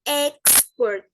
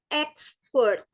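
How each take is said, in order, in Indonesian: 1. Tekanannya ada di suku kata pertama. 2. Tekanannya ada di suku kata kedua. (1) "bunyi kata sifat dan benda yang memiliki dua suku kata, penekanan ada di awal suku kata" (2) "pelafalan bunyi kata kerja yang, yang penekanannya di akhir"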